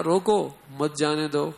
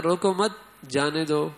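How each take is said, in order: First: "روکو" stretched and set apart, then "مت جانے دو"; pause after روکو. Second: "روکو مت" run together, pause, then "جانے دو"; group "روکو مت" tightly, break, "جانے دو"; pause after مت. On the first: Teacher showing how the guard misread it, pause after روکو. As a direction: slowly, hold "روکو", break, "مت جانے دو". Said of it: "اس نے پڑھا". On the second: Teacher showing how the note should be read, pause after مت. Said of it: "حالانکہ پڑھنا تھا". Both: Shown as a demonstration.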